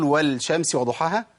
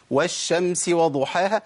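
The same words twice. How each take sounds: First: "والشمس" said "wal-shams" with a clear l; sounded lam. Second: Slowly recited "والشمس" as "wash-shams"; merged lam. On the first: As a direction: wrongly recite an l before the sh in "والشمس". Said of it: "لا، ما ينفعش". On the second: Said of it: "مش إحنا بنقولها كده؟". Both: Shown as a demonstration.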